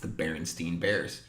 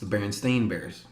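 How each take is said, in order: First: The name ends with a 'stein' sound. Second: The name ends with a 'stain' sound. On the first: This is how the speaker remembers the name. The speaker calls it wrong. "to me, it's the Berenstein Bears" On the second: This is the official form of the name. The speaker calls it right. "It's actually pronounced the Berenstain Bears"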